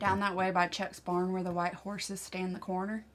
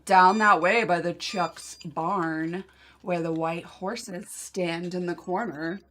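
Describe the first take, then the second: First: It is said in the speaker's usual accent. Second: It is said in a put-on Californian accent.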